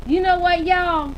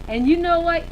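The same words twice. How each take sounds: First: Put-on loud, high playful Southern accent. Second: Said in the usual way. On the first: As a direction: call it out to the room in a Southern accent. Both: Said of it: "I'm gonna say it in my Southern accent".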